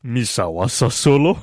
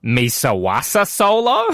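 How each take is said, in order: First: Full put-on alien crime boss; best effort alien voice, then laugh; Jabba the Hutt. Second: Slow, half-hearted alien crime boss; deliberately poor take on an alien voice; Jabba the Hutt. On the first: Host showing best impression, committed alien voice. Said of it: "You want the best I can". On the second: Acted. Host giving guessable line, slow alien impression. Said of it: "It's Jabba the Hutt".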